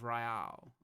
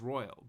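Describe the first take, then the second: First: It is said with the different ending, royale. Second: It is said like the plain word royal. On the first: This is an alternative way of saying the title. "Sometimes they say Royale, which I sort of like" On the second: This is how the title is written. "it clearly says"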